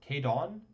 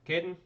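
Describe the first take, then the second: First: The second syllable has an 'o' vowel. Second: The second syllable has a short 'en' vowel. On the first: The speaker calls it right. "Probably it's like K- Cadon. There's an O there" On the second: The speaker calls it wrong. "I'm gonna pronounce it Caden. That's probably incorrect"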